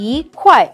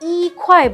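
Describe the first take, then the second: First: The word 'yi' has a rising tone. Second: The word 'yi' has a level tone. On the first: The speaker calls it right. "Fourth টোনের আগে যখন বসছে তখন ই হয়ে যাচ্ছে ই, I mean second tone" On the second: The speaker calls it wrong. "আমরা কিন্তু ই খোয়ায় বলছি না"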